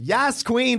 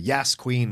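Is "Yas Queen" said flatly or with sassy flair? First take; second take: sassy flair; flatly. First: It is said with sassy, exaggerated flair. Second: It is said flatly, in passing.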